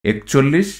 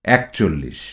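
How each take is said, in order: First: একচল্লিশ with a closed e at the start; spelling pronunciation with e. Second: একচল্লিশ with an open æ at the start; spoken form with æ. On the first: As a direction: read একচল্লিশ as written, "ek-", tone rising. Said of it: "তদ্ভব". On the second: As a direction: say একচল্লিশ as "æk-chollish", falling at the end. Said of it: "যার উচ্চারণ হবে". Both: Shown as a demonstration.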